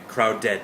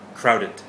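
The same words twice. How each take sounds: First: The word is said slowly and very clearly. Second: The word is said quickly at natural speed. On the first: "I'll say it very clearly" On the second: "that was natural speed, native speed"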